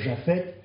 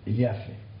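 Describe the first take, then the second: First: The name begins with a soft j sound. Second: The name begins with a y sound. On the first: This is the usual French form of the name. "Nous disons Japhet" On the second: This is the Hebrew form of the name. "mais en fait en hébreu c'est Yafet"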